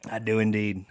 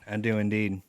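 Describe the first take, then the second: First: Whispered. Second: Said in the usual way. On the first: Pretend. Whispered repeat.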